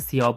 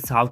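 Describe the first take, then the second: First: It is said with a 'y' glide, 'Siyao'. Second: It is said as one short syllable, 'Sao'. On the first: The speaker calls it wrong. "सियाओ बोल दिया था" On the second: The speaker calls it right. "साव की जगह"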